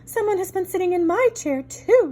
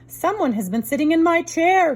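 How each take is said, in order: First: It is said in a middle-sized voice. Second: It is said in a big rough voice.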